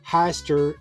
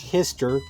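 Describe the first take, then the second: First: The first vowel rhymes with shy. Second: The first vowel rhymes with miss. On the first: "my brain wants to call it Heister, like shyster" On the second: "Google says it's Hister, like Mister"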